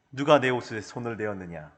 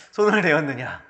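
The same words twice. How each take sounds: First: Low, soft voice as Jesus asking; a low, slightly hushed Jesus asking. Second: An understated voicing of Jesus; a touch of Jesus asking, weight on 손을. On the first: Retold or imitated. Preacher voicing Jesus asking who touched him, low and soft. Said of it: "이렇게 얘기하셨어요". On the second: Preacher voicing Jesus asking who touched him, lightly. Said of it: "딱 이렇게 하셨어요".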